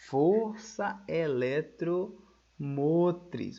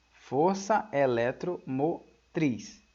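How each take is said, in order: First: Força eletromotriz stretched out very slowly; slow dictation. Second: Força eletromotriz drawn out slowly; slow dictation. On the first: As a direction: dwell on força eletromotriz as the term to note. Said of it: "recebe o nome". (ditando força eletromotriz bem devagar) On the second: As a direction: spell out Força eletromotriz for the notes. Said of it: "Olha só". (ditado lento de Força eletromotriz) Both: Shown as a demonstration.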